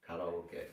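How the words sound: It is pronounced with Japanese vowels and syllables. The speaker calls it right. "It's kara- karaoke"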